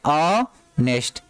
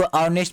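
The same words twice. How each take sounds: First: honest split slowly into "ऑ... nest"; slow pronunciation demo. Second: Said in the usual way. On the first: Shown as a demonstration. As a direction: hold the first vowel of honest, then finish. (Honest को धीरे से दो हिस्सों में बोलें) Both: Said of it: "इसको honest पढ़ते हैं".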